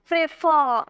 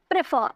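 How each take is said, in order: First: prefer with the final फर stretched and punched; stress on last syllable. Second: Said in the usual way. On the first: Shown as a demonstration. Teacher showing stressed pronunciation, weight on the end of prefer. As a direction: lean firmly on फर in prefer. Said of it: "तो जोड़ दे रहे हैं आप". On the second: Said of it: "ऐसे नहीं बोल रहा".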